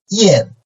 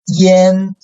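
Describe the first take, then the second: First: The pitch falls sharply from high to low. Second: The pitch stays high and level.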